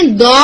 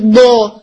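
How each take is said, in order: First: دو with a light, plain dal at the tongue tip. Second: دو said heavy, pressured from the back of the tongue. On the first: Teacher contrasting a plain dal with the heavy ض. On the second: Teacher contrasting the heavy ض with a plain dal. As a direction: make دو thick and blocked inside the mouth. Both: Shown as a demonstration. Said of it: "اب آپ دیکھیں".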